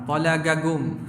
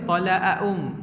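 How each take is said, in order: First: The qaf sound is said as a hard g. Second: The qaf sound is said as a glottal stop. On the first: "ada jadi ga pun ada" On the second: "Qaf jadi kah, cari hamzah pun ada"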